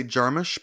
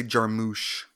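First: "Jarmusch" with a short final vowel, JAR-mush; JAR-mush pronunciation. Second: "Jarmusch" with a long oo at the end, jar-MOOSH; jar-MOOSH pronunciation. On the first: Giving how he always says it, "Jarmusch" as JAR-mush. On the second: Giving how other people say it, "Jarmusch" as jar-MOOSH. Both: Shown as a demonstration. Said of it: "a lot of people say Jarmusch".

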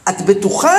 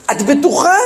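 First: Retold, restrained checking question; mild disbelief with a questioning rise; doubtful question. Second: Higher-pitched, pressing retold question; incredulous repeat question. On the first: Parent questions the teacher about the ruined Temple, doubtful question. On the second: Parent turns back to the teacher after the uproar, incredulous question. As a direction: imitate disbelief, pitch rising sharply.

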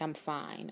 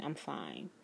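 First: Quiet, choked-back reassurance; swallowing tears to sound okay; softly insisting she is fine through tears; holding back tears. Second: Almost gone, fighting tears; barely said, tears held in; fading, held-back tears. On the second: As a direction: lower and much softer, trailing off. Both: Retold or imitated. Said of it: "I'm holding back tears".

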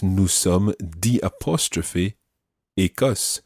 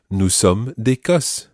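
First: Naming the apostrophe slowly; slow explanatory breakdown; slowed, spelled-out phrase. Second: Said in the usual way. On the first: Shown as a demonstration. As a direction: break it apart for learners. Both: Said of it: "Now watch that".

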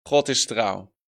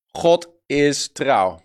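First: Said in the usual way. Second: Slow, each word set apart for writing down; preacher slowly dictating to the congregation, very slow and deliberate; slow dictation. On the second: Shown as a demonstration. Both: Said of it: "Wil je die opschrijven?".

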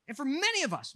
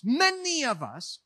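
First: Said in the usual way. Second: Many of us drawn out slowly, each word weighed; slow emphatic repeat. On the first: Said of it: "repeats phrase for weight". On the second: Real, not acted. Pastor pressing the point to the congregation, slow and weighty. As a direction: lean into many, slow it right down. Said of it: "repeats phrase slowly".

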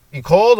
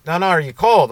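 First: High, loud, rising query; called-out question. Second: Loud, raised pitch, falling at the end; insistent question. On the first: Cop to a drunk walker, calling out a question. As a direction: shout the question across the street. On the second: Cop pressing a drunk walker, insistent question. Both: Retold or imitated.

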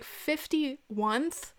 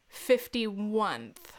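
First: Drawn-out disbelieving question; incredulous. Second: Very slow, falling repeat; deadpan disbelief. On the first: Mocking the caller's grammar, slow and incredulous. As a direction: stretch it out, rising in disbelief. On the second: Quoting the caller's mistake, slow deadpan disbelief. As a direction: drag it out with finality. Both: Retold or imitated.

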